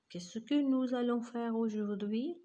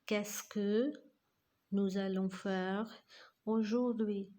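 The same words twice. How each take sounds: First: It is said at normal speed. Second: It is said slowly.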